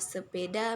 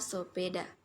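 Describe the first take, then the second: First: The first vowel is an e sound. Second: The first vowel is an o sound. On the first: "alofon E ... diucapkan ... menjadi fonem O" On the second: "alofon E ... diucapkan ... menjadi fonem O"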